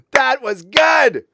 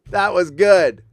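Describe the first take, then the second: First: High and loud, still laughing; slow, breathless words through laughter. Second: Said in the usual way. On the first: Real, not acted.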